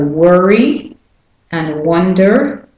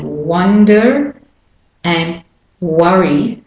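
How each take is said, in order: First: Slow American worry and wonder, r-coloured vowels; American WUR-ee and WUN-der, rising; American pronunciation. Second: Slow British-Australian wonder and worry, full "uh"; British-Australian WUN-duh and WUH-ree; British and Australian pronunciation. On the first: Teacher sums up for learners, American worry and wonder. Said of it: "for the American". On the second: Teacher sums up the others, British-Australian wonder and worry. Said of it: "for the others". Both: Shown as a demonstration.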